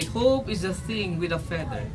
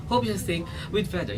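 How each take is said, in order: First: Slow and joined as one word; smooth phrasing. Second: Said in the usual way. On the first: Shown as a demonstration. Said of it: "One word". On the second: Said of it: "You don't say it like that".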